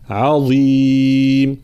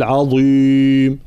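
First: عظيم with a light ع and a clear kasra, slow; correct reading. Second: عظيم with a heavy ع and thick ظ, slow and loud; wrong reading. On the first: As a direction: say عظيم with a thin ع and clean i. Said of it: "لا، عظيم". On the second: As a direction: darken عظيم as a mistake. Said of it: "فلا نقول". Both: Shown as a demonstration.

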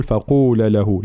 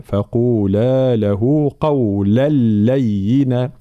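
First: فقولا له with the final alif of فقولا cut short; faulty quick فقولا له, long vowel lost; wrong short vowel. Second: فقولا له قولا لينا recited slowly with full long vowels; measured correct recitation of فقولا له قولا لينا; clear madd, no ghunnah. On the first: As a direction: run فقولا له together without holding the madd. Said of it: "فلا بد من بيان المد". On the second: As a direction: hold the alif of فقولا, merge into لينا without nasal hum. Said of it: "إدغام بلا غنة". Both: Shown as a demonstration.

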